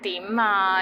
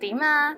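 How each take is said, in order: First: It is said in an impatient tone. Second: It is said in a friendly tone.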